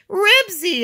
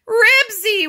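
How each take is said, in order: First: Loud, high shout of the name; high, full-voiced call; yelling. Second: Very high, loud frightened wail; high alarmed cry. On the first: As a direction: yell after your runaway dog. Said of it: "yelled Henry". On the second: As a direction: wail the dog's name in dread. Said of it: "wailed Henry". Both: A narrator's reading.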